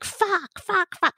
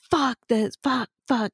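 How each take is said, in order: First: Much higher mock-grandma cursing; swearing grandma. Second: Slightly raised, mock-angry cursing; retold angry swearing. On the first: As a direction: imitate grandma swearing in a high voice. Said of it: "then I hear my grandma". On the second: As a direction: act out cursing while pissed off. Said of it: "pissed off about something".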